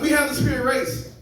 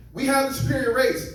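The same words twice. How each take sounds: First: Put-on high, failed German accent; a second weak go at a German accent; comic retrying Hitler's German accent and missing it; bad German accent. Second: A failed attempt at a German accent; comic doing Hitler in a bad German accent. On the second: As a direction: try a German accent and miss. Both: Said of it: "I realized I can't do a German accent".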